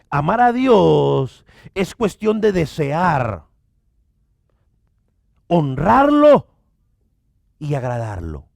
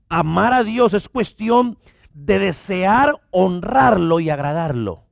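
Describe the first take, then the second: First: The sentence is spoken slowly and deliberately. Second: The sentence is spoken at a normal pace.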